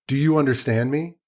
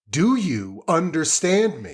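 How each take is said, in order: First: It is said fairly calmly. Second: It is said louder and more intensely.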